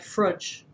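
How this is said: Said in a New Zealand accent with a flattened vowel. "a New Zealander would say frudge"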